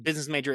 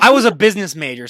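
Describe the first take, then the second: First: Said in the usual way. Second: Loud, proud mock boast; jokingly boasting about her business major; mock bragging. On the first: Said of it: "that's the biggest joke ever". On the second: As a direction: brag it as a joke, puffed up. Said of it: "no, I'm just kidding".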